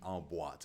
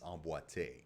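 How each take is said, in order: First: The word ends without an 'ay' vowel. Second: The word ends with an 'ay' vowel. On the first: The speaker calls it wrong. "as it is spelled here, it would be en boîte" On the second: The speaker calls it right. "the real ballet term is emboîté"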